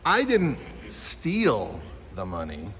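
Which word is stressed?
steal. The word "steal" carries the main stress. Something else was done with the money. "You could have done something else with it"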